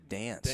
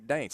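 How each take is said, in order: First: The word is said like plain 'dance'. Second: The word is said like 'daints'. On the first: "than the dance" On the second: "I just I like to say dance. It sounds more manly to me"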